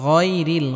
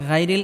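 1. প্রথম gh ধ্বনিটি মোটা ও ভারী। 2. প্রথম gh ধ্বনিটি হালকা ও পাতলা। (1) "গইন মোটা করে উচ্চারণ করতে হবে" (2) "গাইরিল এটা ভুল"

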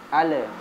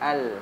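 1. L di akhir berakhir dengan pantulan yang bergema. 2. L di akhir berakhir bersih tanpa pantulan. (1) "huruf lam sukun jangan" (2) "tapi al"

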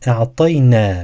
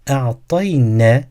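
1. Son ünlü uzun tutulur. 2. Son ünlü kısa kesilir. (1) "Buradaki ne'nin sonundaki elif" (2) "Eğer buradaki uzatmayı yapmazsak"

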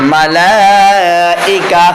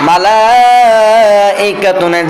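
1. শব্দটি সাধারণ স্বরবর্ণে শেষ হয়, -tun নেই। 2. শব্দটি পূর্ণ -tun দিয়ে শেষ হয়।

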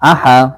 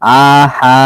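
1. স্বরধ্বনিগুলো ছোট আর দ্রুত। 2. স্বরধ্বনিগুলো লম্বা করে টানা হয়। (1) "হামজা জবর আ বলে টানা যাবে না" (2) "এরকম টানা যাবে না"

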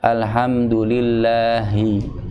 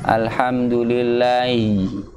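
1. Huruf h sebelum i di akhir itu diucapkan dengan jelas. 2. Huruf h sebelum i di akhir itu hilang. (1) "harus disempurnakan dengan bunyi H-nya" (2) "Jangan alhamdulillahi. I"

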